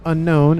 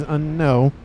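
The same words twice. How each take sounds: First: "Unknown" ending in a clear N; the usual English word "Unknown", closing on N; final N pronounced. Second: "Unknown" without its last N, ending on an open OH; final N dropped. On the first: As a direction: say "Unknown" with the last N sounded. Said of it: "It is not Unknown". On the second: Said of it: "It is not Unknown, it is Unknown". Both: Shown as a demonstration.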